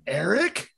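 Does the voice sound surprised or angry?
surprised. It sounds surprised and questioning.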